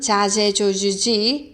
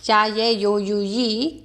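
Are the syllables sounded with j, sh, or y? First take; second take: j; y. First: The syllables begin with a j sound. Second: The syllables begin with a y sound. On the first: "멕시코 쪽은" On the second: "스페인에서는"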